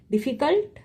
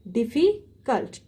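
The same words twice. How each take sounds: First: Said in the usual way. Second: "difficult" with a gap before cult; split syllables. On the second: Shown as a demonstration. Teacher showing more than two syllables, "difficult" slowly split. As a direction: separate "difficult" into slow syllables. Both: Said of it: "two or more than two syllable".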